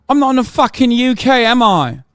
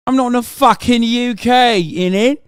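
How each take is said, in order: First: High, loud exasperated retort. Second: Mock British retort ending on innit; hammed-up British slang to mock chat. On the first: Real, not acted. Streamer snapping back at chat over UK wording, loud and high. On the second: Streamer mocking chat with a put-on British accent.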